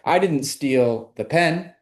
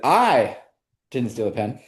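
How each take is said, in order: First: The word 'pen' carries the main stress. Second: The word 'I' carries the main stress. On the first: Something was stolen, but not the pen. "now it sounds like I stole something, but it wasn't the pen" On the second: Someone else stole it. "Now it sounds like I didn't, but I know who did"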